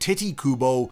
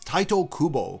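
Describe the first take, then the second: First: The first name begins with a 'tee' sound. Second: The first name begins with a 'tie' sound. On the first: The speaker calls it wrong. "people seem to really enjoy calling him" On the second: The speaker calls it right. "the correct pronunciation in Japanese is"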